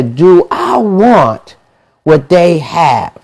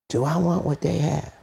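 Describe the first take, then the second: First: Slow, drawn-out self-question; slow pondering. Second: Much softer inner question; quiet self-question. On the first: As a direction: weigh each word as you ask yourself. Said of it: "you look at 'em and say". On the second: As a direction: ask it quietly to yourself. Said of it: "practice this technique". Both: Shown as a demonstration.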